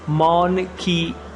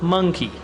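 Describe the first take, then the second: First: The first vowel sounds like 'aw' in ox. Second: The first vowel sounds like 'uh' in up. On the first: The speaker calls it wrong. "नहीं पढ़ेंगे" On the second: The speaker calls it right. "मुंह पर जबर की आवाज रहेगी"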